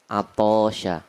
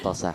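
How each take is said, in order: First: The vowel in the word is drawn out long. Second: The vowel in the word is kept short. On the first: The speaker calls it wrong. "ada beberapa lahjanya kalimat yang salah" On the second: The speaker calls it right. "ya pendek"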